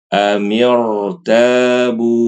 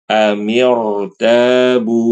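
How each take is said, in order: No difference in how they are said.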